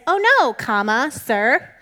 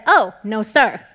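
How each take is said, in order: First: "Oh, no" run together slowly and loud, then "sir" set apart; comma after "no". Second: Loud "Oh", a break, then firm "no, sir" together; comma after "Oh". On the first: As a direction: read "Oh, no" as one phrase, break before "sir". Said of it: "which makes us read it like this". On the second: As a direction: set "Oh" apart, then punch "no sir" as one unit. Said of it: "put the comma after the O". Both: Shown as a demonstration.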